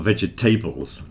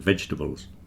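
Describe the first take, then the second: First: The stress falls on the final part, middle pronounced. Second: The stress falls on the first part, middle dropped. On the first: The speaker calls it wrong. "Don't stress the tables at the end" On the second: The speaker calls it right. "The stress is at the beginning"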